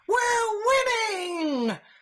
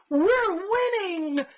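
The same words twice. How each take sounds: First: It is said in a mocking naive voice. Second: It is said in his normal voice.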